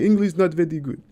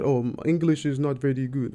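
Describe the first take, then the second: First: Put-on a fuller, higher and louder Russian accent; playful imitation of a Russian accent, stronger this time. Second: A light Russian accent, imitating the driver; a hint of a Russian accent in broken English. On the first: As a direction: ham up the Russian driver's broken English. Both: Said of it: "that's a spot on Russian accent".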